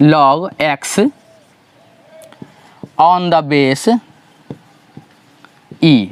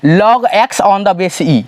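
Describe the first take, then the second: First: Word by word with long pauses; slow dictated reading. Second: Said in the usual way. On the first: Shown as a demonstration. Teacher showing students how to read log, slow and spaced. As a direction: dictate the notation slowly, piece by piece. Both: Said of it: "इसको पढ़ते कैसे हैं".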